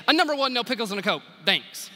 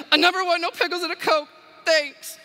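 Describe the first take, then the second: First: Rattled off fast, no pause between items; shot back quickly. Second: Much higher and louder, blurted out in tears; tearful shout. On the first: Drive-thru customer firing her order back, quick and curt. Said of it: "shot back quickly". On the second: Woman bursting into tears, shouting her order at the cashier. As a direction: shout the order as you break down crying. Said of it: "burst into tears and shouted her order at me". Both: Retold or imitated.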